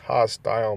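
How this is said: It is said in a British accent.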